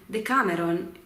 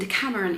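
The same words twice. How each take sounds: First: The word is said with an Italian accent. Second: The word is said with an English accent. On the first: "I feel weird saying Decameron in an Italian accent" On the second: "I feel weird saying Decameron in an English accent"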